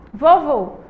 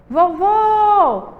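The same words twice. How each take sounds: First: Said in the usual way. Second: VOVÔ called out with a long, high final VÔ; VÔ final alongado. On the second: Shown as a demonstration. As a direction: hold the last syllable of vovô, higher. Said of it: "A gente demorou mais tempo aí no vô final". (vovô com o VÔ final bem esticado e agudo)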